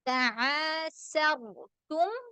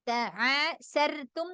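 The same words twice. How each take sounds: First: The r sound is heavy and full. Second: The r sound is light and thin. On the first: The speaker calls it right. "Sir അവിടെ റാനെ തഫ്ഖീം ചെയ്യണം" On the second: The speaker calls it wrong. "തആസർതും എന്ന് പറയരുത്"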